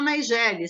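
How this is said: The name is said the adapted Portuguese way. This form is needed to be understood in Portuguese. "em português a gente tem que falar Nigélia"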